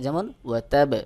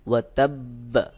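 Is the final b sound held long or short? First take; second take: short; held. First: The final b is short, like ordinary qalqala. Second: The final b is pressed and held longer. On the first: The speaker calls it wrong. "অনেকেই এখানে স্বাভাবিক কলকলার মতো উচ্চারণ করে" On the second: The speaker calls it right. "আমি যে বার স্থানে একটু চাপ দিয়ে আওয়াজটাকে দীর্ঘ করলাম"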